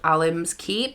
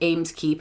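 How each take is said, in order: First: The name begins with the sound 'alim'. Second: The name begins with the sound 'ames'. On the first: The speaker calls it right. "it's called Alim's Keep" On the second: The speaker calls it wrong. "The keep is not called Ames Keep"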